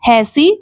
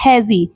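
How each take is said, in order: First: The middle consonant is a hissing s sound. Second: The middle consonant is a buzzing z sound. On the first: The speaker calls it wrong. "Pronunciation निकल कर आना चाहिए था हैसी" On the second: The speaker calls it right. "लेकिन यहाँ पर आया है हैजी"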